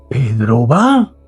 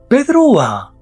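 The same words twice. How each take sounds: First: It is said with an incredulous tone. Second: It is said with a weary, annoyed tone. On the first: The speaker cannot believe Pedro is going. "no lo puedo creer" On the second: The speaker dislikes that Pedro is going. "estoy diciendo que pereza que vaya Pedro"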